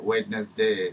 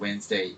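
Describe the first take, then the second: First: Every letter is sounded, including the first d. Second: The first d is silent, sounding like Wensday. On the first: This is how the word is spelled. The speaker calls it wrong. "এভাবে বানানটা" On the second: This is how the word is actually pronounced. The speaker calls it right. "উচ্চারণ pronunciation হচ্ছে ওয়েন্সডে"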